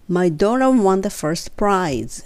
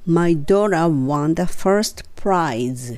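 First: The sentence is spoken at a faster pace. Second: The sentence is spoken at a slow pace. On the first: "3 回目はちょっと早く" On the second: "2 回ゆっくり言って"

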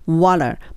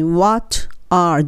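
First: The t is flapped and the words run together. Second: The t is clear and the words are separate. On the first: The speaker calls it right. "l に近い発音になって water water もうt は言わないですね" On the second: The speaker calls it wrong. "What are ではなくて"

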